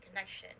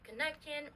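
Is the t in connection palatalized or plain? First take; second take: palatalized; plain. First: The middle consonant is a sh sound. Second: The middle consonant is a plain t sound. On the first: The speaker calls it right. "you say" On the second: The speaker calls it wrong. "you don't say"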